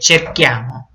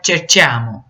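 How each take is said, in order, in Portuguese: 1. O c antes do i é um som duro de k. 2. O c antes do i é um som suave de ch. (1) "É cerchiamo" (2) "Vai ficar cerchiamo, e não é"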